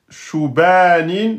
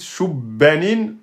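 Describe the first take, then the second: First: The b is single; the vowel after it is long. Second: The b is doubled; the vowel after it is short. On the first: "c'est faux, vous avez oublié la shadda" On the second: "vous avez respecté la shadda, mais vous avez oublié le alif"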